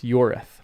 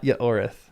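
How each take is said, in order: First: The name is said with two syllables. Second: The name is said with three syllables. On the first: The speaker calls it right. "It's Yorith. / Two syllables" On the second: The speaker calls it wrong. "it's not Yaorith"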